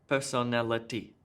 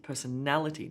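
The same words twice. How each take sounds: First: All syllables get equal stress. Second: The third syllable is stressed, others weaker. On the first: The speaker calls it wrong. "let me just try to do it with even stress on each of the syllables" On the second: The speaker calls it right. "na gets the emphasis there"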